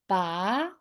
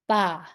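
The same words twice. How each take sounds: First: The pitch rises from middle to high. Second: The pitch falls sharply from high. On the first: "How about the second tone?" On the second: "And how about the last tone?"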